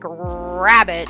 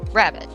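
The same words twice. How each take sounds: First: The R sound is over-enunciated. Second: The R sound is relaxed. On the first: The speaker calls it wrong. "start with over enunciation ... it's not like rabbit" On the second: The speaker calls it right. "tone it back ... it's rabbit"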